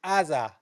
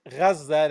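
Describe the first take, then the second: First: Aza with no opening consonant, starting on the vowel; mimicked Hebrew pronunciation. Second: Gaza opened with a throaty Arabic "gh"; native Arabic pronunciation. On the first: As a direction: drop the throaty first sound and say just "Aza". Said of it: "They can't say Gaza". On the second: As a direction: start Gaza on a gargled "gh", as in "Ghazza". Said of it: "they say Aza". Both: Shown as a demonstration.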